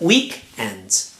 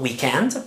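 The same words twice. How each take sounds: First: The stress falls on the first syllable. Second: The stress falls on the second syllable. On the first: The speaker calls it right. "but weekend" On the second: The speaker calls it wrong. "not weekend"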